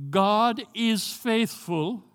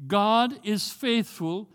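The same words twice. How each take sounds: The two takes are said the same way.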